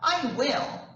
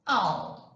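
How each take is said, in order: First: Both words are said in full. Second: The words are run together into one syllable.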